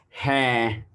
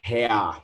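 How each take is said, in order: First: The vowel glides smoothly as one sound. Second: The vowel breaks into two separate parts. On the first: The speaker calls it right. "It's hair" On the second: The speaker calls it wrong. "most of us we say it like hair"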